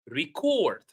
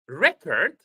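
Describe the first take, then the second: First: The stress is on the second syllable. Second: The stress is on the first syllable. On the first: It is used as a verb. "verb, record" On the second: It is used as a noun. "Noun, record"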